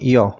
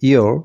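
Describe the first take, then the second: First: It is said in a British accent. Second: It is said in a non-British accent.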